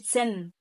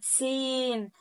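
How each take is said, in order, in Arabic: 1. الحركة قصيرة ومقطوعة. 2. الحركة ممدودة وطويلة. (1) "ما تقولش تسن" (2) "الهاء يعمل لك مد"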